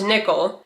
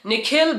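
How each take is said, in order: First: The name is said with an American pronunciation. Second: The name is said with an Indian pronunciation. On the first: The name made easier for others to say. The speaker calls it wrong. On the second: The name as the parents intended. The speaker calls it right.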